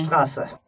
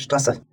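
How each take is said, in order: First: The s sound is drawn out and long. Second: The s sound is short and quick. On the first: The speaker calls it right. "It's a pulled out S" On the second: The speaker calls it wrong. "instead of"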